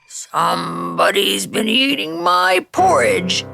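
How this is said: It is said in a deep, gruff voice.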